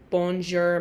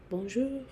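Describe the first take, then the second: First: It is said with a flat English accent. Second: It is said with an exaggerated French accent. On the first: The speaker is not trying, to look cool. "Nobody tries because they gotta look cool" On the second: The speaker is really trying the pronunciation. "I was the one that was like"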